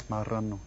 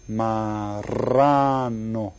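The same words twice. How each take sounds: First: Said in the usual way. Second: "Marrano" very slow with a long trilled rr; rolled double R. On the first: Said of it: "The second one". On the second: Shown as a demonstration. Teacher shows the double R, "Marrano" with long roll. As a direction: draw out "Marrano", rolling the rr hard. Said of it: "That's where you go R".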